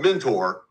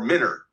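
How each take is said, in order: First: The name is said the way it is spelled. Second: The name is said the way locals say it. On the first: This is the outsider's reading of the name. "It's spelled Mentor" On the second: This is how residents say the name. "the people who live there call that Mentor or Minter"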